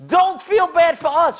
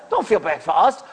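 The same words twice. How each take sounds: First: Angry rebuke. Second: Said in the usual way. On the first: Retold or imitated. Dispatcher scolding the apologetic caller, raised voice. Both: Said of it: "got so angry".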